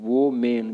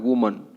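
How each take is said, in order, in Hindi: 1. यह 'woe men' जैसा सुनाई देता है। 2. यह 'wuh-mun' जैसा सुनाई देता है। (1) "वो मेन बोल देते हैं ... जो कि गलत है" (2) "इसको क्या बोलना है, वुमन"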